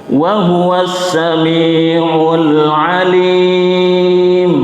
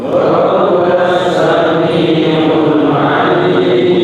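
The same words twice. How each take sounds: The two takes are said the same way.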